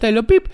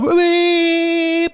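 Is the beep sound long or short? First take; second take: short; long. First: The beep is short and light. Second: The beep is drawn out and prolonged. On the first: A friendly greeting or small signal. "ένα μικρό κορονάρισμα" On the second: An insult, like a bleeped-out curse. "αυτό το μπιπ της κόρνας το παρατεταμένο"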